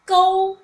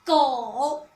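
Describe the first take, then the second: First: 狗 held loud on one level pitch; high level tone. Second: 狗 dropping low; low, dipping 狗; third tone. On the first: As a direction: call out 狗 evenly, no dip. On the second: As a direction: let 狗 sink to a low pitch. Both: Shown as a demonstration. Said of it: "with the third tone".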